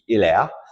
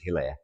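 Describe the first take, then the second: First: The name is pronounced with French sounds. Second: The name is pronounced with English sounds. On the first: This is how the name is properly said in France. "the correct French pronunciation of his name would be" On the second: This is how he was known in England. "so he was known as"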